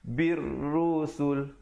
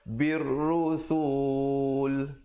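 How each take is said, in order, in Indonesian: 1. Vokalnya dibaca pendek. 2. Vokalnya dipanjangkan. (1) "Habis begitu saja" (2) "jangan dipanjangkan... Tak betul"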